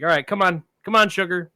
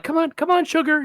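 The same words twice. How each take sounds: First: Said in the usual way. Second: High sing-song come on, come on; coaxing a dog. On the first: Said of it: "like you encourage a dog". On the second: Retold or imitated. Calling a big dog up the hill, high coaxing voice. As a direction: coax the dog along, pitched way up. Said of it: "you encourage a dog".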